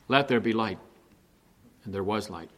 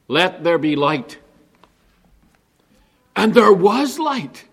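First: The voice is flat and unvaried throughout. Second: The voice is lively and varied throughout. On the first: The speaker calls it wrong. "You could read it in a monotone and it would sound like this" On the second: The speaker calls it right. "I think it's meant to be read like this"

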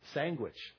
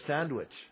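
First: It is said with the local hometown pronunciation. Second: It is said with the standard pronunciation. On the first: The speaker is from the hometown. "we all said sandwich instead of" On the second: The speaker is from elsewhere. "instead of sandwich"

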